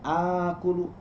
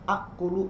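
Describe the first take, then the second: First: The first vowel is smoothly lengthened to two beats. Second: Two glottal catches collide at the start. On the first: This is the changed form actually read. "menjadi dua harokat" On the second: This is the original underlying form. "Yang asalnya nekan, nabrak"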